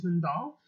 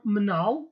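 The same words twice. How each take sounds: First: Mandal with the D sounded; standard pronunciation. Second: Manal with no D after the n, drawn out slowly; Slemani D dropped. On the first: Teacher explains the word for child, "mandal" with its D. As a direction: keep a clear D in "mandal". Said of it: "we omit D sounds mostly". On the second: Teacher gives learners the Slemani word for child, "manal" without D. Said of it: "in Slemani accent". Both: Shown as a demonstration.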